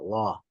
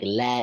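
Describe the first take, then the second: First: The lam is heavy and full. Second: The lam is thin and light. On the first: The speaker calls it wrong. "and not law" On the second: The speaker calls it right. "with tarqiq, okay? Making it sound like la"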